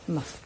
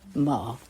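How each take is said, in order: First: The syllable is short, light and toneless. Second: The pitch dips low, then rises.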